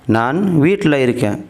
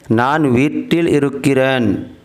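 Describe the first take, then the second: First: Some syllables are clipped and shortened. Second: Every syllable is pronounced in full. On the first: This is how people normally say it. "आम तौर से जब बोलते हैं" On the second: This is the careful written form. "इस तरह से लिखा जाता है"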